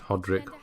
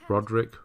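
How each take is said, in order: First: The name begins with an H sound. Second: The name begins with an R sound. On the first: The speaker calls it wrong. "I've been saying Hodrick" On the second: The speaker calls it right. "Roderick, isn't it?"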